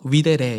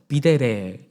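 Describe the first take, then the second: First: The word begins with a W sound. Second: The word begins with a V sound.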